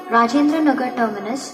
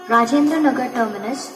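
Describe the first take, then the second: No difference in how they are said.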